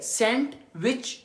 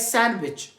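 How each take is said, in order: First: The d sound is clearly pronounced. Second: The d sound is left out. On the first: The speaker calls it wrong. "सैंडविच नहीं है" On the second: The speaker calls it right. "ये सैंडविच"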